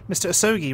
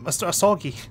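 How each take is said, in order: First: The name is said with an English accent. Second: The name is said with a Japanese accent. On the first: "my English accent trumps my Japanese accent, so I'll pronounce him" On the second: "rather than"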